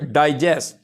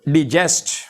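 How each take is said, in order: First: The stress is on the first syllable. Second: The stress is on the second syllable. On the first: The word is a noun or adjective. "अगर हम stress देते हैं first syllable पर डाई" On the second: The word is a verb. "जब हम इसको जेस्ट पे stress देते हैं"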